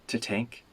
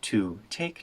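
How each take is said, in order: First: The word to is weak and reduced. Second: The word to has a full vowel.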